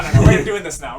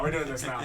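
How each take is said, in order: First: Loud mock insistence, near yelling; half-joking yell of insistence; mock shout. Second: Said in the usual way. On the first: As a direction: bark the no's like you mean it, hammed up. Mock outburst mid-story.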